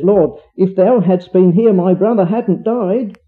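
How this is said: It sounds reproachful, like Martha blaming him.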